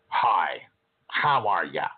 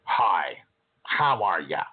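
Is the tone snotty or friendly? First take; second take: snotty; snotty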